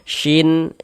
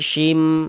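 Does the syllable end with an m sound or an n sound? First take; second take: n sound; m sound. First: The syllable ends with a clear n sound. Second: The syllable ends with an m sound. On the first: The speaker calls it wrong. "jangan dibaca shin" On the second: The speaker calls it right. "tapi shim"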